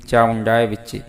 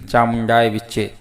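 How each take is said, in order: Both takes have the same delivery.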